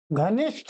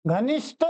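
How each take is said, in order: First: घनिष्ठ ending in breathed th; correct pronunciation. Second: घनिष्ठ ending in a plain t; wrong pronunciation. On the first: Teacher recaps the correct form, घनिष्ठ said as ghanishth. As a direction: release the end of घनिष्ठ with breath. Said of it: "घनिष्ठ शुद्ध है". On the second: Teacher recaps the wrong form, घनिष्ठ said as ghanisht. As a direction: end घनिष्ठ without a breath, ghanisht. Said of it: "अशुद्ध है". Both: Shown as a demonstration.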